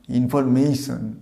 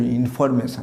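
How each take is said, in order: First: "ইনফরমেশন" as in-for-mey-shan, ei glide in the third syllable; slow model in-for-mey-shan; correct pronunciation. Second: "ইনফরমেশন" with a flat short me, in-for-me-shan; everyday in-for-me-shan; mispronunciation. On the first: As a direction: say "ইনফরমেশন" slowly, gliding on mey. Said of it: "এটা হস্যই হবে". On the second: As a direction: say "ইনফরমেশন" without a glide in "me". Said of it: "এটা উচ্চারণ ইনফরমেশন না". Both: Shown as a demonstration.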